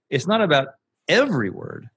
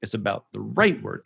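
First: "every" lifted and punched; stress on every. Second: "right" lightly lifted, rest run past; touch "right", let the rest fall; stress on right. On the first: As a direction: hit "every", glide over the rest. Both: Shown as a demonstration. Replaying his emphasis example to a co-host. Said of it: "Every and right were the only two words I emphasized".

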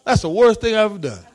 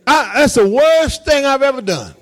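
First: Quick, lightly laughing admission; amused confession. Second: High, emphatic insistence on WORST; serious insistence. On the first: Pastor on helping people get jobs, amused. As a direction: toss it off fast with a touch of laughter. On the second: Pastor insisting he is serious about helping, emphatic. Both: Real, not acted. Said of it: "Seriously, I'm serious".

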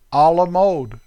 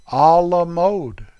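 First: Everyday American "A la mode"; American-accented French phrase. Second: Slow, drawn-out French "A la mode"; careful, louder French-style delivery; attempted French accent. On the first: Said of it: "Darn American accent". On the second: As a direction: stretch "A la mode" out in mock-French. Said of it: "Let me say it right". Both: Shown as a demonstration.

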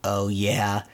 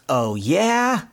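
First: Low, level parroting; deadpan imitated comeback; spring's echo. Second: Higher, rising challenge; mock-indignant retort; mild retold yell. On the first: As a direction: echo it back in monotone. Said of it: "the echo of his voice". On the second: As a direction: dare it with a climbing pitch. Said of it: "Donald kinda yelling at the spring".

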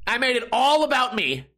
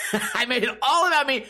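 First: Said in the usual way. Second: Laughing. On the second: Real, not acted.

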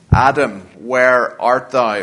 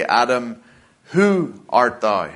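First: Slow, solemn, leaning on "where"; "Adam, where art thou?" with weight on "where"; stress on where. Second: "Adam, who art thou?" with weight on "who"; stress on who. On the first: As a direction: ask it slowly, hitting "where" hard. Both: Shown as a demonstration. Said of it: "Or perhaps better we would say".

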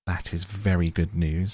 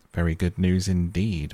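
First: Said in the usual way. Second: Very good news said with understated doubt; dubious. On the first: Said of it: "said the mole". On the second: A narrator's reading. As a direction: sound a touch unconvinced, a little louder on NEWS. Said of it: "observed the rat dubiously".

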